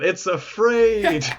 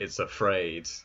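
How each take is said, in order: First: It is said in a gleeful, triumphant tone. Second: It is said in a grim, ominous tone.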